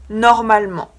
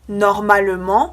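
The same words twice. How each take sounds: First: The middle e vowel is dropped. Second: The middle e vowel is pronounced.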